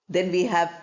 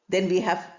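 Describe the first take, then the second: The two takes are said the same way.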